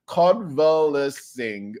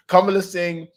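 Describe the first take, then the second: First: Convalescing said very slowly, syllable by syllable; slow sounding out. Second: Convalescing said smoothly at normal pace, a bit higher; fluent retry. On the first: Reading a hard word aloud, convalescing sounded out slowly. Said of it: "oh my God". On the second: Rereading the hard word, convalescing said fluently. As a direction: say convalescing in one go. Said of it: "What a word". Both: Shown as a demonstration.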